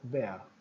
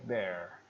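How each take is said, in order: First: The r sound at the end is barely heard. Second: The r sound at the end is strongly marked. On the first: "O britânico, o R está bem pequenininho e ele usa o schwag" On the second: "o americano prefere marcar o som do R"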